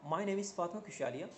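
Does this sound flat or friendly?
friendly. The voice sounds warm and friendly. The speaker seems welcoming. The speaker calls it right. "Now interesting one"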